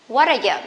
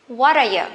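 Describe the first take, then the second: Both takes have the same delivery.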